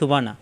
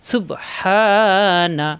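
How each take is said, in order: First: The bounced b and long vowel are dropped. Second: The bounced b and long vowel are clear. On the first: The speaker calls it wrong. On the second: The speaker calls it right.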